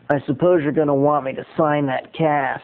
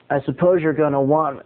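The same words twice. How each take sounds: First: Lightly imitated condescending star; a hint of a condescending celebrity impression; Charlie Sheen. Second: Said in the usual way. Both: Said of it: "I'm gonna try to do my Charlie Sheen imitation".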